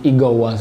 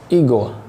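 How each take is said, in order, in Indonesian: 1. Kata itu berakhir dengan bunyi akhir tambahan yang ditekan. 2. Kata itu berakhir biasa, tanpa bunyi akhir tambahan. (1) "Ada ada ada pressing di bagian akhir" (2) "ada yang menyebutnya dengan igo"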